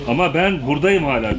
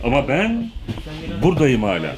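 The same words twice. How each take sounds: First: It runs on without a pause after 'ama ben'. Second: There is a pause after 'ama ben'. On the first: The speaker calls it wrong. "Ama ben orada durmuyorsun. ... diyorsun. Öyle değil" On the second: The speaker calls it right. "Bak onu ayırman lazım"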